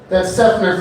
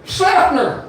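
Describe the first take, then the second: First: Said in the usual way. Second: Seffner as a twangy Sepner, pitched up high. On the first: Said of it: "but you can't say". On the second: Shown as a demonstration. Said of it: "you can't say Seffner".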